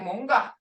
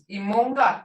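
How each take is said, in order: First: The initial vowel is dropped from the word. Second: The word starts with a full initial vowel. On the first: It is how people talk to each other. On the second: It is the formal form.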